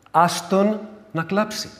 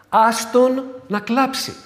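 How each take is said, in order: First: Mild scolding. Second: Higher, louder and slow; a mild rebuke to grieving kin; scolding relatives. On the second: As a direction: insist firmly, let him cry. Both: Retold or imitated. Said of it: "να μαλώσω λίγο κάποιους συγγενείς".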